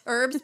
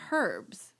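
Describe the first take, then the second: First: The word begins with a silent h. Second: The word begins with a pronounced h. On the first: This is how it is said in the speaker's own country. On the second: This is how people in England say it.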